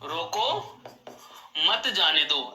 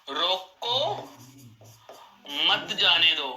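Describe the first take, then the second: First: There is a pause after the first word. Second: There is a pause after the first word.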